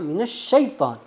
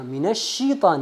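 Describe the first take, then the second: First: The 'sh' is followed by an 'a' vowel. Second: The 'sh' is followed by an 'i' vowel. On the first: The speaker calls it right. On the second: The speaker calls it wrong.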